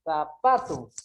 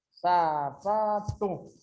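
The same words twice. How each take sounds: First: Said in the usual way. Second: "Sapato" very slowly, each syllable held apart; slow teacher's breakdown of "Sapato" into syllables. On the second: Shown as a demonstration. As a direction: stretch out every syllable of "Sapato". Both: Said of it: "Ela tem mais forte aqui".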